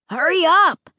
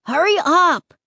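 First: High, loud call from nearby. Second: High, loud impatient call; impatient shout. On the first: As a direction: call to her from close by. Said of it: "Luke called from somewhere nearby". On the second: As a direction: yell at her to hurry. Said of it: "Luke shouted impatiently". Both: Acted.

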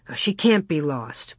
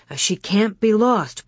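First: Said in the usual way. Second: Firmer, raised insistence; insisting. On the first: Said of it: "Pa said". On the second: A narrator's reading. Pa to Ma about the lost child, insisting. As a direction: insist on it, voice lifted a little. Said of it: "Pa insisted".

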